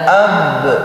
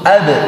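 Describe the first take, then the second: First: The final b is held and drawn out. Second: The final b is released quickly and short. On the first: The speaker calls it wrong. "tidak ab" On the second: The speaker calls it right.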